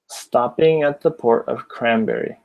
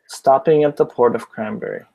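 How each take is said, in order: First: The phrase is spoken at a slower pace. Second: The phrase is spoken at a faster pace.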